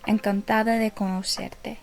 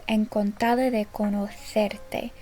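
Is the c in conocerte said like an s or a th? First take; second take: s; th. First: The c in conocerte sounds like s. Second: The c in conocerte sounds like th.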